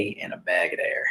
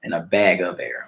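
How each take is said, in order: First: "bag of air" with "of" slurred into a "d" sound; slurred slip. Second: "bag of air" with a distinct "of"; corrected pronunciation. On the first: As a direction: run "bag of air" together like "bagga-dair". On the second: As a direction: restate "bag of air", sounding "of" as "uv". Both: Real, not acted. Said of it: "I'm sorry".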